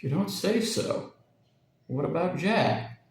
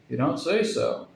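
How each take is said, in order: First: Slow, higher, apprehensive man's voice; replayed Charlie imitation. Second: Heavy, apprehensive imitation of Charlie; imitated man's heavy voice. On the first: Parrot replays Charlie's words to Jack, slow and uneasy. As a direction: parrot repeats the heavy worried voice, slow. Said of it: "a quite astonishing imitation of Charlie's voice". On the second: Parrot mimics Charlie to Jack, heavy and apprehensive. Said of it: "said he in a heavy voice, a voice of apprehension". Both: A narrator's reading.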